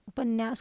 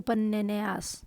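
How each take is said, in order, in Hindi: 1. n ध्वनि एक बार बोली जाती है, खींची नहीं जाती। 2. n ध्वनि दोहरी होती है, देर तक खींची जाती है।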